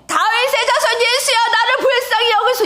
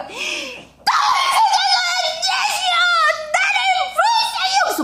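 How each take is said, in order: First: High, sustained pleading cry; crying out loudly. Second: Screaming even harder. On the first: Beggar first calling to Jesus before being hushed, crying out. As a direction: call out the plea high and urgent. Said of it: "그러면 이제 이런 것 같아요". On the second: Hushed beggar crying out harder to Jesus, all-out desperate scream. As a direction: scream with everything you have. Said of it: "더 크게 한다는 거". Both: Acted.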